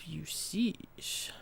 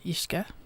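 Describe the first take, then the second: First: The word sounds like 'you-sees'. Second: The word sounds like 'ish-ka'.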